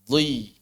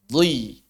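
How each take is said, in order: The two takes are said the same way.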